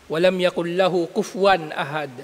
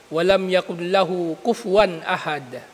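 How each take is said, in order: No difference in how they are said.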